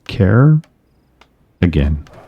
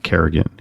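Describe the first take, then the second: First: It sounds like the two words care again. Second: It sounds like the single name Kerrigan. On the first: The speaker calls it right. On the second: The speaker calls it wrong. "Not Kerrigan"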